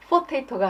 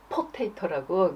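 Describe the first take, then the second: First: The word begins with an f sound. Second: The word begins with a p sound. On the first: The speaker calls it wrong. "피에이치 발음이 에프 발음이 나거든요" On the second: The speaker calls it right. "남편이 이제 정정을 해주더라고요"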